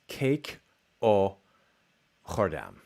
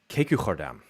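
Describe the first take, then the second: First: The vowel after the first word sounds like 'o'. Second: The vowel after the first word sounds like 'u'. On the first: "So she says cake o chordam" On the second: "It's "u" in between two velars"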